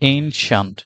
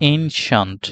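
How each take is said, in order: Both takes have the same delivery.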